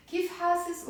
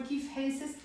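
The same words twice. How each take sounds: First: Hasis said with an open a, hah-sis; hasis with A sound. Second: Hasis said with an ay vowel, hay-sis; hasis with E sound. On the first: Teacher showing variant one, open a vowel. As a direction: hasis with a clear short a. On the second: Teacher showing variant two, ay vowel. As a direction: hasis softer, vowel closer to ay. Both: Shown as a demonstration. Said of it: "you can pronounce both of them".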